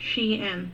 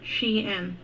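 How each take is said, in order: First: The name is said as two syllables, she-in. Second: The same.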